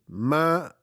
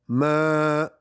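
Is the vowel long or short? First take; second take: short; long. First: The vowel is short, held for one beat. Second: The vowel is long, held for two beats. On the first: "c'est une durée de un" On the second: "c'est une durée de deux"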